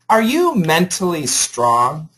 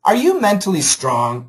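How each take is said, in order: First: It is read slowly and carefully. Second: It is read at a faster pace. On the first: "I'll read it very nice and slow so you can hear all the sounds" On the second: "Now I'll read it faster"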